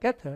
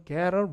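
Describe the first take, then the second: First: The t is pronounced as a crisp, strong t. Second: The t is flapped, sounding like a soft d. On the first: "영국식이라 T 발음 약간 세게 발음해서" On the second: "이게 t를 굴려. 그래서 미국 사람은 get a ride"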